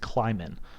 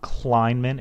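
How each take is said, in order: First: No n sound comes before the m. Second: An n sound comes before the m. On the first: The speaker calls it right. "There is no first in before the M" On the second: The speaker calls it wrong. "It's not Kleinman"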